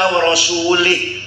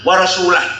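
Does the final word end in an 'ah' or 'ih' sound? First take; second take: ih; ah. First: The final word ends with an 'ih' vowel. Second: The final word ends with an 'ah' vowel. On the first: The prophet is also not protected by God. The speaker calls it wrong. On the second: The prophet also does not protect the idolaters. The speaker calls it right. "Bahasa yang benar"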